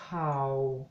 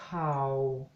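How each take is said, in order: First: The word is said on a low tone. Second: The same.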